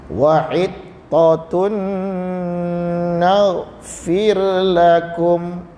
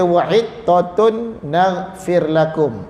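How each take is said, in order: First: The n merges with a lengthened nasal hum. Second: The n is pronounced clearly without lengthened nasalization. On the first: The speaker calls it right. "Dengung dia tu lebih daripada satu harakat" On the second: The speaker calls it wrong. "itu jadi izhar"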